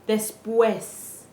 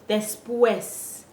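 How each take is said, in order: The two takes are said the same way.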